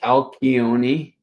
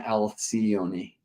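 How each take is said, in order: First: The name is pronounced in the Greek way. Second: The name is pronounced in the English way. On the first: "he says in Greek" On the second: "in English often"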